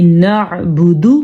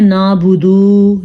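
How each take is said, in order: First: نعبدو with بو and دو kept short; short vowels. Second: نعبدو with the بو and دو stretched long; wrong long vowels. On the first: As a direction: keep بو and دو in نعبدو short and crisp. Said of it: "بو، دو، چھوٹے چھوٹے". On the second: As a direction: drag out the vowels of نعبدو as a mistake. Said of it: "لمبا نہیں، بالکل بھی نہیں". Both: Shown as a demonstration.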